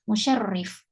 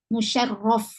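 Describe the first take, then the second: First: The vowel before the final f is 'i'. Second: The vowel before the final f is 'a'. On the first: Some scholars read the name this way. "ada yang bacanya musyarrif" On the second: This is the better-supported reading of the name. "dibaca musyarraf, itu adalah yang lebih benar ya, yang lebih kuat"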